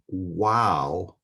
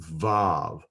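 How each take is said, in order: First: The word starts with a W sound. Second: The word starts with a V sound. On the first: The speaker calls it wrong. "pronounced W as in way" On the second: The speaker calls it right. "it has the V sound as in victory"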